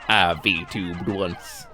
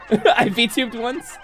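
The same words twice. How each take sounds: First: It is said in a put-on character voice. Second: It is said in the speaker's ordinary voice.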